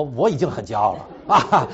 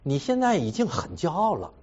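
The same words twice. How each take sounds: First: Louder, laughing mock outrage; indignant retort. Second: Calmly quoting his wife's charge; wife's accusation. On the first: Husband re-enacting his angry retort to his wife, laughing. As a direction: bristle at the charge, half laughing. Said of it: "所以就发脾气了". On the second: Retold or imitated. Husband quoting his wife's verdict on his pride, mild. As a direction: plainly retell her blunt verdict. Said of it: "他说".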